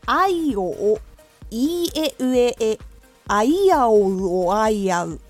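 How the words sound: The vowels are joined together in one flow. "少しずつつなげて練習します"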